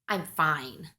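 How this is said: It sounds annoyed, with an eye-roll attitude.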